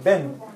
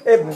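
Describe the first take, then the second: First: The word begins with a b sound. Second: The word begins with a vowel sound. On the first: The speaker calls it right. "but we make it short" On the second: The speaker calls it wrong. "Bin means Ibn"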